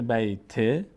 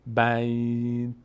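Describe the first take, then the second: First: بیت said as "bayte", with a short e; vowel on final t. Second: Long, slow بیت closing on a bare t; final consonant vowelless. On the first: Teacher shows continuing past the word, vowel on final t. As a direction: release the t of بیت into an e. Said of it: "این ت اگر ادامه بدیم". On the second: Teacher shows stopping at verse end, final consonant vowelless. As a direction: stretch بیت, no vowel after the t. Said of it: "وقتی ساکن بشه". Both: Shown as a demonstration.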